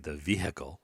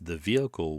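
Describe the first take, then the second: First: The H in vehicle is pronounced. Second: The H in vehicle is silent. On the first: The speaker calls it wrong. "when you say the H, you sound like an ignorant hillbilly" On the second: The speaker calls it right. "So you drop the H because it is silent"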